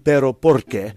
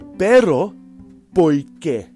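First: The R in porque is rolled and clearly pronounced. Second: The R in porque is dropped, not pronounced. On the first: "It's supposed to be pero porque. Porque is the rolling of the R" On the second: "So they go, pero porque. Because they don't like to pronounce the R in porque"

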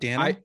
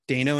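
First: The first vowel sounds like 'dah', not rhyming with Drano. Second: The first vowel sounds like 'day', rhyming with Drano. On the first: The speaker calls it wrong. "and not" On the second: The speaker calls it right. "it rhymes with Drano"

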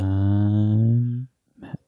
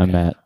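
First: It is said quietly and shyly. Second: It is said louder and closer.

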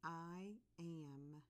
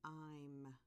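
First: Two separate words are said in full. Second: The words are pushed together into one syllable. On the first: "I'm going to say the two words" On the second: "the contraction, where the words are smushed together"

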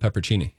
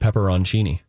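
First: The word skips the 'on' syllable after 'pepper'. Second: The word includes an 'on' syllable after 'pepper'. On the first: The speaker calls it wrong. "Not peppercini" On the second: The speaker calls it right. "There's an O-N"

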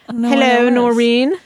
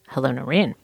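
First: It is said in a British accent. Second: It is said in a plain American accent. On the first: The speaker calls it right. "I didn't know you did a British accent" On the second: The speaker calls it wrong. "I feel like I got a less British greeting from you"

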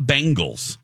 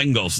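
First: The first syllable sounds like 'bang'. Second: The first syllable sounds like 'ben'. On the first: The speaker calls it wrong. "It's not the bang. It's not Bengals" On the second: The speaker calls it right. "you know how to say Ben?"

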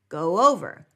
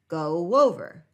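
First: A W glide links the two words. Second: A W glide links the two words.

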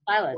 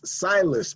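First: The name is said with a French pronunciation. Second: The name is said with an American pronunciation. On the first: "but French Silas" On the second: "It's in America, it's Silas"

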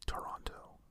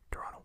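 First: It is said the slower American way. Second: It is said quickly, the Canadian way.

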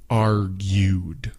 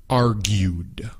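Both takes have the same delivery.

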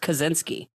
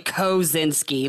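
First: The name is said plainly and naturally. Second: Each syllable is pronounced with exaggerated care. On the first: The speaker calls it right. "it's just Kosinski" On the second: The speaker calls it wrong. "it's not really Kosinski, like you're fucking"

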